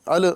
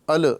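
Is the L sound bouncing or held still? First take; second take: bouncing; bouncing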